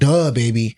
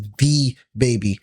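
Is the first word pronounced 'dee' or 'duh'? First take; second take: duh; dee. First: The first word is said as a short 'duh'. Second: The first word is said as the letter 'dee'. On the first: The speaker calls it wrong. "not Duh Baby" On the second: The speaker calls it right. "His name is [name]"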